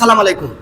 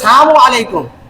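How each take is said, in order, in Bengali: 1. শুভেচ্ছাটি ছোট করা শব্দ salam দিয়ে শুরু হয়। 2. শুভেচ্ছাটি সংক্ষিপ্ত শব্দ sam দিয়ে শুরু হয়। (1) "অনেকে আমরা সালাম দেই সালাম আলাইকুম" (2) "সাম মানে মৃত্যু"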